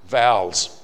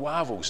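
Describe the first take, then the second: First: The word begins with a V sound. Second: The word begins with a W sound. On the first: It is the standard form of the word. "change out W to a V and a V to a W" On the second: It imitates a speaker who swaps V and W. "in some languages a V is pronounced as a W"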